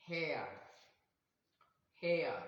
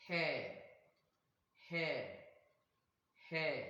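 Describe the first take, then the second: First: HAIR with a gliding air vowel, falling; diphthong pronunciation. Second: HAIR with one steady long vowel, no glide; long-vowel pronunciation. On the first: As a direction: model HAIR slowly as a separate word, ending in a schwa glide. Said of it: "Now I'm gonna pronounce". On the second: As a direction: model HAIR as a lone word with a held vowel. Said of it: "a long". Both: Shown as a demonstration.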